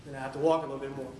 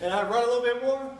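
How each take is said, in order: First: Dropped pitch, hurried words; subdued walking take. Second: High, loud push; energetic running take. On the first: Runner admits having to walk, lower and fast. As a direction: drop low and rattle it off. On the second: Runner recounts running some more, high and loud. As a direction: surge up in pitch and volume, as if running. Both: Retold or imitated. Acts out running versus walking.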